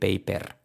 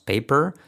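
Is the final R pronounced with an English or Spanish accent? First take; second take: Spanish; English. First: The final r sounds Spanish, tapped. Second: The final r sounds English, not tapped. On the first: The speaker calls it wrong. "el defecto español, que sería decir paper" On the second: The speaker calls it right. "Entonces tendríamos paper"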